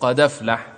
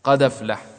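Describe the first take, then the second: Both takes have the same delivery.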